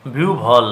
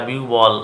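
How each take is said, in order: First: বিহুবল said as "biubhol" with a bh sound; correct pronunciation. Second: Said in the usual way. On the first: Shown as a demonstration. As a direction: breathe out the bh in বিহুবল. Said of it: "actually উচ্চারণ হবে বিহুবল". (শুদ্ধ উচ্চারণ বিউভল) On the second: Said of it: "আমরা সকলেই বলি এটা বিহুবল".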